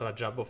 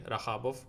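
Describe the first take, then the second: First: The middle consonant is a J sound. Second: The middle consonant is a breathy H sound. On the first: This is the name's own pronunciation. "instead of" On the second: This is how it is said in Spain. "in Spain they say like He"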